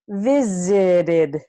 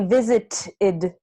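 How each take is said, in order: First: The middle T is a quick tap. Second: The middle T is a hard, clear T. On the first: The speaker calls it right. "we say visited" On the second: The speaker calls it wrong. "we don't say visited"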